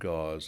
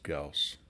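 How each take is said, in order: First: The word ends with a buzzing z sound. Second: The word ends with a hissing s sound. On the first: The speaker calls it wrong. "some people say gauze. It's not gauze" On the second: The speaker calls it right. "it's Gauss"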